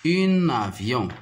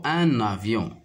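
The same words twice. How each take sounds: First: "un avion" with the article said as feminine "une"; wrong article sound. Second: "un avion" with nasal masculine "un" linked by an n; corrected article sound. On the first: Teacher slips while naming the second image, wrong article sound. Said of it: "Ah, plutôt un avion". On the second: Teacher correcting her slip on the image's name, corrected article sound. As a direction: say "un avion" as "un-navion". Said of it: "Ah, plutôt". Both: Shown as a demonstration.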